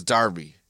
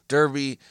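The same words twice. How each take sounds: First: Darby, with an open "ar"; Darby with "ar" for the first vowel; British-style Derby. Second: Derby said as DUR-bee; Derby with an American r-colored first vowel. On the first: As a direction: say Darby as DAR-bee. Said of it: "they pronounce it as Darby". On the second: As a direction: say Derby with an "ur" sound. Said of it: "It's just in their accent". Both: Shown as a demonstration.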